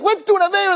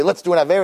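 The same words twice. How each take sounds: First: "Let's do an avera" echoed much higher in horror; shocked girls. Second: Said in the usual way. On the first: Acted. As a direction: repeat the offer as if scandalized. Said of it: "But girls are like". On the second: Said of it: "he could come once in a while and say".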